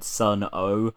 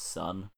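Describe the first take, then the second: First: The name is said with two syllables. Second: The name is said with one syllable. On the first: The speaker calls it wrong. "but that's not how you pronounce it" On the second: The speaker calls it right. "Just "son.""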